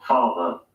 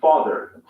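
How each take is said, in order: First: Father ending in a simple schwa, no R; non-rhotic ending on Father; British dropped R. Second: Father with the final R clearly sounded; American R. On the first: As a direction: say Father the British way, final R silent. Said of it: "final R sound is not pronounced". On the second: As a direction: say Father the American way, ending on a full R. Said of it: "Listen to the difference". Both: Shown as a demonstration.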